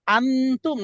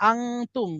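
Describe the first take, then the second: First: আনতুম with a plain tongue-tip n; আনতুম without nasal hum; clear n. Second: আংতুম with the n turned into a nasal ng; আংতুম, n hidden in the nose; nasal ikhfa. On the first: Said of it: "একটা হচ্ছে আনতুম". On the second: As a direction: hum the ng in আংতুম before tum. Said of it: "অনুসার মতো উচ্চারণ করতে হবে". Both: Shown as a demonstration.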